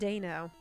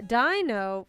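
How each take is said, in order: First: The first vowel sounds like 'ay'. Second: The first vowel sounds like 'eye'. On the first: This is how the name is actually said. The speaker calls it right. "it's actually pronounced Dano" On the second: This is how the speaker first said the name. The speaker calls it wrong. "Dino was originally how I, how I said it"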